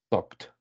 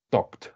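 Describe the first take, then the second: No difference in how they are said.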